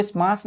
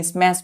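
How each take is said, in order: First: स्मैश with a long open "aa", like "smaas"; mispronounced स्मैश. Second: स्मैश with the "ae" vowel of "cat"; correct pronunciation. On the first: Teacher showing pupils the wrong reading, स्मैश mispronounced as "smaas". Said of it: "इसको स्मैश नहीं पढ़ते हैं". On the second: Teacher giving pupils the correct reading, स्मैश pronounced with an "ae" vowel. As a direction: say स्मैश as "smaesh", front AE vowel, not AA. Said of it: "स्मैश पढ़ते हैं". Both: Shown as a demonstration.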